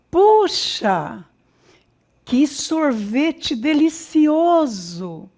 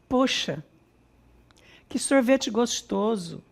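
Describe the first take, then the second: First: It is said with lively emotion. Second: It is said flatly, without emotion.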